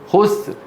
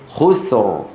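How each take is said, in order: First: The final R is barely audible after the S. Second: The final R is clearly pronounced after the S. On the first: The speaker calls it wrong. "تكاد آخر حرف تسمعه السين" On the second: The speaker calls it right. "لابد من أن يقول خسر خسر"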